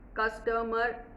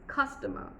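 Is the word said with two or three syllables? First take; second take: three; two. First: The word is said with three syllables. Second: The word is said with two syllables. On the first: The speaker calls it wrong. "three, that's wrong" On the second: The speaker calls it right. "It's customer"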